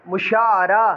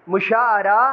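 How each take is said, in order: No difference in how they are said.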